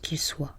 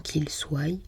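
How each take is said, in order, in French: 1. Le verbe se termine sur un son vocalique simple. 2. Le verbe se termine par une glide 'y' ajoutée. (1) "c'est tout simplement qu'il soit, comme soit" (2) "certains les transforment bizarrement en"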